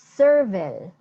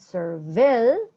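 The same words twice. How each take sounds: First: The stress is on the first syllable. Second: The stress is on the second syllable. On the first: The speaker calls it right. "the emphasis is in that um, that part" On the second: The speaker calls it wrong. "it's not servile"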